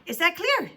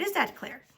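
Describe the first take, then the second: First: Louder, higher, angry question; insistent repeat. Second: Firm question at ordinary volume; stern check. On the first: Teacher forcing a silent pupil to agree, insistent. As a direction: demand agreement with raised voice. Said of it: "she asked again". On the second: Teacher warning Todd into silence, stern but contained. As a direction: ask it firmly, without raising volume. First asking, before the repeat. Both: A narrator's reading.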